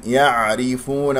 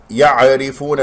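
First: Slow "يعرفون" with a still, flowing ayn; correct unbounced ayn. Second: "يعرفون" with an extra vowel after the ayn; wrong bounced ayn. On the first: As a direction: recite "يعرفون" slowly, no vowel on the ayn. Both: Shown as a demonstration. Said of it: "لا تقلقل العين".

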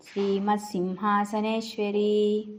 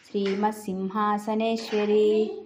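Both takes have the same delivery.

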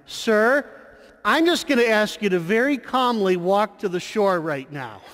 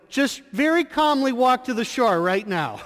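First: Loud, high, steady firm request; calm but assertive. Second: Firmer, higher insistent repeat; more insistent call. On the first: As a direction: call out, polite but firm. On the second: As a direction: press the request harder, still polite. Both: Retold or imitated. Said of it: "but yet loudly and assertive".

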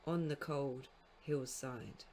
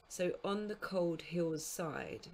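First: Slow, heavy beats on "cold hillside"; metre spelled out. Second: Slow, beat by beat: "so on the cold hill's side"; metrical reading. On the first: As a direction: land three strong beats on "cold", "hill", "side". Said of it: "dee dee dum, dum dum". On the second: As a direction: scan "so on the cold hill's side" slowly, leaning on "cold", "hill's", "side". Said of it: "is comprised of an anapest and then a spondee". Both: Shown as a demonstration.

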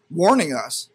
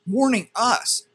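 First: Said in the usual way. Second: "warning" said much higher and slowly drawn out; indignant emphasis. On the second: Real, not acted. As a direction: lean hard on "warning us" in disbelief. Repeats phrase to stress it.

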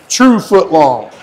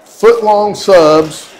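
First: True punched, then foot long; stress on true. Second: Foot long subs drawn out slowly, each word weighted; boastful drawn-out foot long subs; slow emphatic. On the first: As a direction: lean hard on the word true. Repeating it for emphasis. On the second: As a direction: savor the phrase foot long subs, stretching it out. Showing off the sub's length. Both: Real, not acted.

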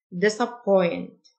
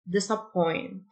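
First: "Disappoint" said slowly, each syllable clear; careful teacher read of "Disappoint", slow; slow model word. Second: Said in the usual way. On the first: Shown as a demonstration. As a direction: stretch "Disappoint" out so learners can copy it. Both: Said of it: "repeated slowly as model".

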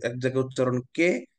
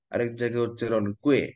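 First: কে said as a simple "kay", no w-glide; plain "kay" ending. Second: কুয়ে said with a w-glide, "kway"; "kway" ending. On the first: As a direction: end on an open "kay" in কে. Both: Shown as a demonstration.

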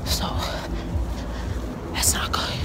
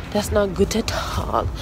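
First: Whispered. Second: Said in the usual way. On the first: Real, not acted. Worried aside while cold outside.

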